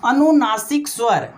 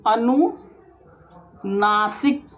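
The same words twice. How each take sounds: First: Said in the usual way. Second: अनुनासिक stretched very slowly with a rising end; teacher slowly drawls अनुनासिक for the class; drawn-out word. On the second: Shown as a demonstration. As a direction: pull अनुनासिक out long, ending up. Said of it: "एक ठो आता है अनुनासिक स्वर".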